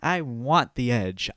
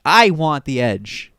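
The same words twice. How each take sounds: First: Said in the usual way. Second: Imitating, the same words said much louder; louder mock demand. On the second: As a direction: push it out hard, mock hungry for edge. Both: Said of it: "who are like".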